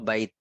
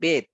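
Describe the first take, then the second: First: The vowel glides from 'a' to 'i'. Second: The vowel is a single plain 'e' sound. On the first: This is the standard form of the word. The speaker calls it right. "কিন্তু সঠিক হলো বাইত" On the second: This is the everyday regional way Arabs say it. The speaker calls it wrong. "আরবরা কি বলবে জানেন? বেত।"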